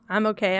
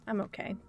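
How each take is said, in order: First: Said in the usual way. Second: Hushed "I'm okay" said to herself; soft, barely there "okay"; murmured reassurance to herself; quiet reassurance. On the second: Real, not acted.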